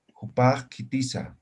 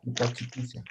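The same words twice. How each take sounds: First: Jupakitiza with a slight catch after "Jupa"; break inside Jupakitiza. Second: Said in the usual way. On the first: Shown as a demonstration. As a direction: cut Jupakitiza briefly before "kitiza". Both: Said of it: "Que hay cortes".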